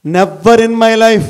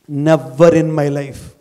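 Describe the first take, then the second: First: Slow and loud, ringing out; loud slow declaration; louder, emphatic. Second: Very slow, each word weighed; slow, measured vow; slow, deliberate. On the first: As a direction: proclaim "Never in my life" to the hall. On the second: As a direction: lay out "Never in my life" slowly. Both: Shown as a demonstration. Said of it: "repeated motto".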